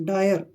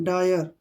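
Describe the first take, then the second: No difference in how they are said.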